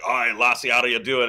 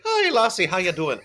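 First: Scottish accent. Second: High-pitched mock Irish greeting; same brogue an octave up, as an Irishman; Irish accent. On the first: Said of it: "a Scotsman be like". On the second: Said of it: "an Irishman's like". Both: Shown as a demonstration.

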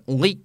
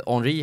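First: Henri med tydlig fransk brytning; säg Henri som en fransman; franskt uttal. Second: Said in the usual way. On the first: Shown as a demonstration. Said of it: "om man är i Frankrike heter han". (överdrivet franskt Henri) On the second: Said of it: "eller om man är i Frankrike".

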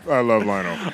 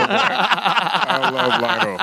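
First: Said in the usual way. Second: High, drawn-out words through laughter; real giddy laugh in the voice; laughing affection. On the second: Real, not acted. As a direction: stretch it out while cracking up. Laughing fondly after the story.

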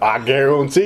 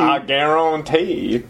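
First: Bayou accent, lilting up at the end; New Orleans accent. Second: Slow, drawn-out Bayou accent, falling at the end; New Orleans accent. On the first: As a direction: put on a hammy Louisiana accent. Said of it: "like a Born in the Bayou accent". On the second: Co-host gives their best New Orleans accent, slow Bayou drawl. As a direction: stretch it out like a Louisiana Cajun. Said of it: "as good as the New Orleans accent". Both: Shown as a demonstration.

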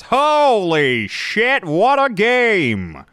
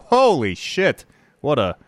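First: High, loud, very slow announcer call; home run call. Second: Slow, drawn-out excited announcer call; baseball announcer voice. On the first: Shown as a demonstration. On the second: Pretend. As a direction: call it like a home run on air. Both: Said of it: "I just fell into my baseball announcer voice".

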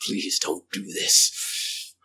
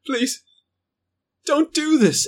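First: Low, slow, dark creature voice; dark, drawn-out menacing plea; darker tone. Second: High, strained plea; thin high begging, well above normal; high pleading creature voice. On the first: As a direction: drop it low and drag it out. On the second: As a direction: beg in a high, pitched-up voice. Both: Acted. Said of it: "but in a darker tone".

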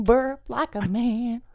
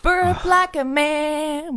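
First: Gruff manly voice. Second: Stretched slowly, higher; slow drawn-out taunt. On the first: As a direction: say it like a tough guy. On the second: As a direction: drag each word out, teasing. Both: Shown as a demonstration.

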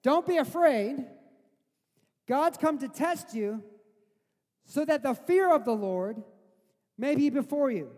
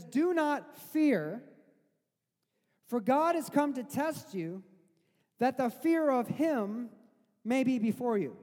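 First: Louder, pressing restatement, higher pitched; emphatic paraphrase. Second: Slow, weighty reading of Moses's words; solemn scripture reading. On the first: Preacher restating Moses to his congregation, loud and urging. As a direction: drive the words home to the congregation. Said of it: "think about what he just said". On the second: Preacher quoting Moses to the frightened people, slow and solemn. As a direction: read it out slow and grave, letting each phrase land. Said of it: "he says". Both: Retold or imitated.

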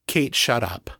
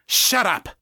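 First: Said in the usual way. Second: Sharp, high snap; snapped. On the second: A narrator's reading. Lisa silencing the intruder, snapped. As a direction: snap it as a curt order. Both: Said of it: "Lisa snapped".

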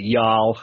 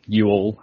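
First: "y'all" as one syllable; "y'all" contracted, no separate "you". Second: "you all" as two separate words; "you all" in full, both words distinct; British you all. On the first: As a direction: run "y'all" together as a single word, Southern style. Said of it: "I like the, uh, the y'all". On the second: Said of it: "as we would say". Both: Shown as a demonstration.

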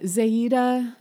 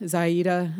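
First: ZAY-da, first syllable like "say" in "Zaida"; mispronounced name. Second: ZAI-da, first syllable like "eye" in "Zaida"; corrected name. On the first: Co-host fumbling the villain's name, "Zaida" said as ZAY-da. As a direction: say "Zaida" with an AY vowel, slowly. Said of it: "I'm not trying to mispronounce it". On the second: Co-host correcting the villain's name, "Zaida" said as ZAI-da. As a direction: say "Zaida" with a long I vowel. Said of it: "That's how they said it". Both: Real, not acted.

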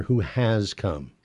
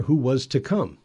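First: "has" leaned on for contrast; stress on HAS. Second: "was" leaned on for contrast; stress on WAS. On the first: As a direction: put the weight on "has", as already fulfilled. New law contrasted with old law. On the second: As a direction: put the weight on "was", as still to come. Old law contrasted with new law. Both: Real, not acted.

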